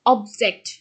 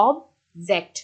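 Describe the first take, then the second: First: object with অব hit loud; stress on first syllable. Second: object split, with জেক্ট stressed; stress on second syllable. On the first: Teacher showing the noun form, stressed অব in object. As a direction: punch অব, let জেক্ট sit in object. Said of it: "অবের উপরে কি করা হচ্ছে". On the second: Teacher showing the verb form, stressed জেক্ট in object. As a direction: hold অব, then press জেক্ট in object. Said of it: "জ্যাকটাকে pressure দেওয়া হচ্ছে". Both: Shown as a demonstration.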